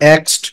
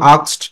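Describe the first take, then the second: First: The vowel sounds like a front 'eh'. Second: The vowel sounds like an open 'ah'. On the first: "তুমি যদি বলো এক্সড, no problem." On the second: "দুইটা প্রোনাউন্সিয়েশনই সঠিক। তুমি যদি বলো আক্সড, নো প্রবলেম।"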